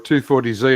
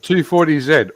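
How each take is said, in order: First: The letter Z is said the American way. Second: The letter Z is said the Australian way. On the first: This is the car's name in America. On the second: This is the car's name in Australia.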